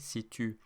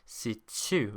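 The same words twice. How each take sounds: First: The t is a plain stop. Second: The t has an s-like hiss after it. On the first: This is the standard French pronunciation. "in standard French French, this word that you see in front of you would be pronounced situ" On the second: This is the Quebecois pronunciation. "T is pronounced like T S"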